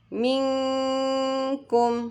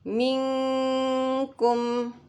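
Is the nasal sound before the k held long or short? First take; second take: held long; held long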